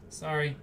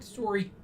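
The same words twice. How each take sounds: First: Said in the usual way. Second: Canadian "Sorry." with a round "sore-ee" vowel; Canadian accent. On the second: Shown as a demonstration. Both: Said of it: "To my Canadian accent".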